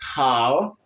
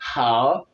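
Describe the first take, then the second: First: The h is said with strong breath. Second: The h is said with strong breath.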